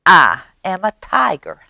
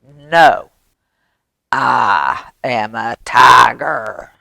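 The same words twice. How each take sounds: First: A slightly higher mouse voice; lightly voiced little boaster, pitched up; mouse's boast. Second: Low, slow, emphatic tiger; tiger's correction. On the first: Mouse claiming to be a tiger. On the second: Acted. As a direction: draw it out firmly as the real tiger. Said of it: "He comes and he says".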